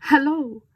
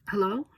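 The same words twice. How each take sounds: First: Much higher, louder overjoyed hello; overjoyed German caller. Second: Said in the usual way. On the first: A narrator's reading. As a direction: burst out with relieved joy. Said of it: "The voice sounded overjoyed".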